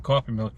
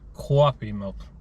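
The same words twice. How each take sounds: First: It is said in a general American accent. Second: It is said in a local Rhode Island accent. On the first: The speaker calls it wrong. "You can't say coffee milk" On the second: The speaker calls it right. "You gotta say it right"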